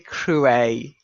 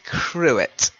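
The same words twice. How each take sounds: First: The final T sound is left silent. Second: The final T sound is pronounced. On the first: "Some people say cruet. It's a little pretentious" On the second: "a lot of people say cruet"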